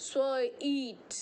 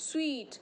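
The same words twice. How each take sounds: First: সুইট stretched very slowly, every sound drawn out; a careful teacher's slow-motion সুইট; drawn-out pronunciation. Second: Said in the usual way. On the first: Shown as a demonstration. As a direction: pull সুইট out slowly so each sound is heard. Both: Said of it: "এইভাবে উচ্চারণ হচ্ছে".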